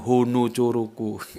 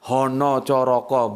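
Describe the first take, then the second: First: The vowels are pronounced as u sounds. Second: The vowels are pronounced as o sounds. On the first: The speaker calls it wrong. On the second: The speaker calls it right.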